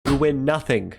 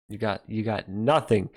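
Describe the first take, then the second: First: Shouted mock dismissal; loud mock shout. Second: Said in the usual way. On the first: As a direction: boom it out like a gameshow host. Mock game-show dismissal. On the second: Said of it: "repeats it shouted".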